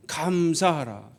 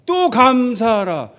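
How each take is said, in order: First: Soft command. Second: Building command. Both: Shown as a demonstration. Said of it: "계속 하는 거예요".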